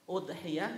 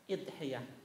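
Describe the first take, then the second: First: The word begins with an 'u' vowel. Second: The word begins with an 'i' vowel. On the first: "Jadi bisa dibaca hamzanya itu dhammah" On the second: "bisa dibaca idhiyah"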